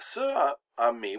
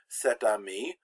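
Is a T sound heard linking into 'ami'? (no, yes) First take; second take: no; yes. First: No T sound is heard before ami. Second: A T sound links into ami. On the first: The speaker calls it wrong. "we don't say" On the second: The speaker calls it right. "we put that T in there for assonance so that it sounds better"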